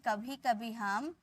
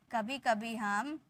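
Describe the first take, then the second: No difference in how they are said.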